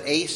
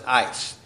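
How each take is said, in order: First: The vowel sounds like the one in 'ace'. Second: The vowel sounds like the one in 'ice'. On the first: "some would pronounce it ace" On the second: "some would pronounce it ice"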